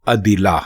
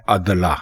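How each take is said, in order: First: عدلہ as "a-di-la", i under the dal; careful عدلہ with zer on dal; correct pronunciation. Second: عدلہ as "ad-la", both syllables open a; the mistaken عدلہ, short a and no i; wrong pronunciation. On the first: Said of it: "درست لفظ ہے". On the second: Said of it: "اس کو لکھتے بھی ہیں اور بولتے بھی ہیں". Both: Shown as a demonstration.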